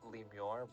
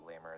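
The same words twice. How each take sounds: First: The word is pronounced carefully and fully. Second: The word is pronounced in a relaxed, everyday way. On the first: "if you want to enunciate" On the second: "it's usually lemur is how most people pronounce it"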